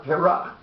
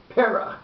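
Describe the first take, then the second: First: "perach" as pe-RACH, slowly; the wrong version, end-stressed "perach"; stress on last syllable. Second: "Perach" as PE-rach, slowly; front-stressed "Perach", carefully demonstrated; stress on first syllable. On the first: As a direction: push the weight onto the end of "perach". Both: Shown as a demonstration. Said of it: "not perach".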